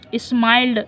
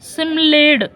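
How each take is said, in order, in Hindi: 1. यह एक शब्दांश में कहा जाता है, 'smiled'। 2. यह दो शब्दांश में कहा जाता है, 'simled'। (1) "अब ये लिख रहा है स्माइल्ड" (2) "अब मैं कैसे पढ़ता, तो ऐसे में पढ़ता था"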